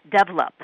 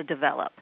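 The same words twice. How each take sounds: First: Develop stressed on the first syllable; different word stress. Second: Develop stressed on the second syllable; usual US stress. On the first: Guest contrasts another accent's word stress, develop stressed up front. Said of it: "a different word stress". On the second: Guest contrasts the US way, develop stressed on VEL. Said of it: "as opposed to develop". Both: Shown as a demonstration.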